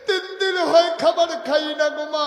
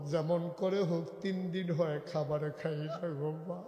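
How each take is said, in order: First: Very high, loud acted wail; crying child. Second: Subdued pleading with a breaking end; tearful child. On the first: Starving child begging mother for food, loud crying wail. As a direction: wail it out at full voice, tearful. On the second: Acted. Starving child begging mother for food, subdued tearful plea. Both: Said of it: "বাচ্চারা কাঁদতেছে".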